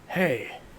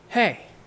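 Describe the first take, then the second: First: It is said in a deeper, more distant voice. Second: It is said in a normal, near voice.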